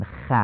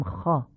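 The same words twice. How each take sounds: First: 'خ' with a thin, front Persian 'a'; wrong light fatha. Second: 'خا' with a dark, back, short 'aw' vowel; heavy Arabic fatha. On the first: Teacher showing what we don't say, thin 'a' on 'خ'. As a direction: say 'خ' as light 'kha', like 'cat'. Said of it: "نمیگیم". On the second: Teacher showing the Arabic way, heavy 'خا'. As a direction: round 'خا' into a full-mouthed 'kho'. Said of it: "میگیم". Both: Shown as a demonstration.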